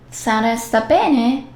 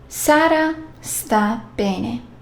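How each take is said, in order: First: It has the intonation of a question. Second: It has the intonation of a statement. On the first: Asks whether Sara is well. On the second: Sara is well.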